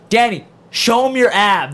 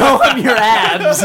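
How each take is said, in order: First: Slow, higher, louder teasing; teasing host call. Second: Slow, higher, louder while laughing; laughing mock of the teasing call; laughing tease. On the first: Retold or imitated. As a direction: egg him on slowly for the crowd. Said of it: "Nick Scarpino's like". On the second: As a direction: repeat the dare through laughter.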